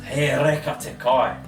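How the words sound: It is said as a statement, ending low. The food is delicious. "the food is scrumptious"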